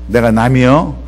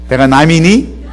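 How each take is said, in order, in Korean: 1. 충청도 말투로 말합니다. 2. 서울말투로 말합니다. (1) "충청도 말로 하겠습니다" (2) "서울말로 하겠습니다"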